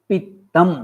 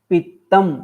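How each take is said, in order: No difference in how they are said.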